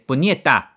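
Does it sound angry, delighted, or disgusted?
angry. It sounds like an angry curse.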